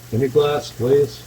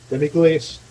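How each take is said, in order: First: "Demi-glace, glaze" corrected to end on glaze; pronunciation correction. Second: "Demi-glace" said as tem-ee-glace, unsure; unsure pronunciation. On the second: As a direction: try "Demi-glace" with a hard k, like klace. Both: Shown as a demonstration. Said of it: "I don't know how you pronounce it".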